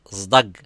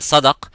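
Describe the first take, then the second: First: The word begins with a buzzing z sound. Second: The word begins with a hissing s sound. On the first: It is the local dialect form. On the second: It is the original Arabic form.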